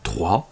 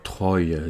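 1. Le nom se prononce à la française. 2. Le nom se prononce à l'anglaise.

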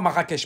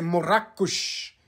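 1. Le nom de la ville a une prononciation de style français. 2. Le nom de la ville a une prononciation de style arabe. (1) "C'est pas Marrakech. ... ça c'est les Français qui t'ont imposé ça" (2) "Si tu veux mentionner ta ville correctement, c'est Marrakech"

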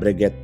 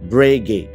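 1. Kata ini diakhiri dengan bunyi t yang terdengar. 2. Kata ini diakhiri tanpa bunyi t sama sekali. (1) "beberapa teman gue bilang bahwa merek ini adalah Breguet" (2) "Jadi nggak ada huruf T-nya"

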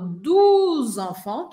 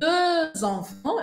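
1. A primeira palavra tem uma vogal 'oo' posterior. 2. A primeira palavra tem uma vogal 'eu' anterior arredondada. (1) "que é o maior erro, vocês trocarem o e pelo u" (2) "Quando eu falo é dos enfants, eu tenho dois filhos"

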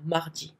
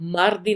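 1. r की जगह एक हल्की h जैसी आवाज़ आती है। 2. बीच में एक साफ़ r की आवाज़ सुनाई देती है। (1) "र नहीं सुनाई देगा" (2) "मार्दी ना बोलें"

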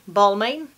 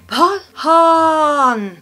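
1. Ändelsen läses som den stavas, med tydligt M. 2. Ändelsen är en mjuk nasalvokal. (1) "Tycker jag ska uttalas Balmain" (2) "det uttalas så här"

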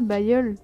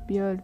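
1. La première syllabe se prononce comme 'bay'. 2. La première syllabe se prononce comme 'bee'. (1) "C'est pas Bayol" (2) "Je pense que ça se prononcerait Biol"

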